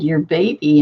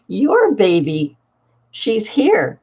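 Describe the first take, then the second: First: Said in the usual way. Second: Put-on "Your baby" slowed right down, spelled out patiently; slow emphatic repeat. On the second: Grandmother repeating to her drugged daughter, slow and patient. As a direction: say it again slowly so she gets it.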